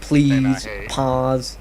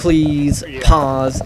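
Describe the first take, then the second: First: The p sounds are soft, without bursts of air. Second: The p sounds pop with strong bursts of air. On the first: The speaker calls it right. "that's what it sounds like with the pop filter" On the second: The speaker calls it wrong. "without it, it pops a little more"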